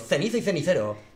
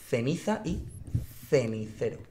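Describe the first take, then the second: First: The phrase is said at a faster pace. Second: The phrase is said at a slower pace.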